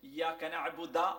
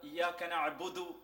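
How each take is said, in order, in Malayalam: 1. ക്രിയ 'a' സ്വരത്തിലാണ് അവസാനിക്കുന്നത്. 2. ക്രിയ 'u' സ്വരത്തിലാണ് അവസാനിക്കുന്നത്. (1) "വായിച്ചൂടാ" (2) "ഫത്ഹുള്ളടുത്ത് ഫത്ഹായിട്ട് വായിക്കണം, കസ്റുള്ളടുത്ത് കസ്റായിട്ട് വായിക്കണം"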